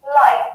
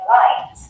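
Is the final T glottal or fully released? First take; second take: glottal; released. First: The final T is replaced by a glottal stop. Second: The final T is fully pronounced and released. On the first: "it might sound like this" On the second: "instead of saying"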